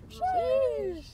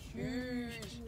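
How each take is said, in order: First: It is said in a high pitch. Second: It is said in a low pitch.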